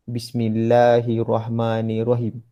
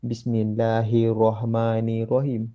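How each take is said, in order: First: Bismillahirrahmanirrahim with doubled r in hirrah; correct pronunciation. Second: Bismillahirrahmanirrahim with roh, no shadda; wrong pronunciation. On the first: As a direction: stress the shadda on "hirrah". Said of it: "Dia sepatutnya ada sabdu". (sebutan betul dengan sabdu) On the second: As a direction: say "hirohmanirohim", sound of the h softened. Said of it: "Dia salah sebut". (sebutan salah hiroh tanpa sabdu) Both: Shown as a demonstration.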